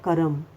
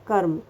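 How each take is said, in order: First: The r is fully sounded with a vowel. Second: The r is a short half sound. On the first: The speaker calls it wrong. "मतलब र पूरा" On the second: The speaker calls it right. "आधा र आ रहा है"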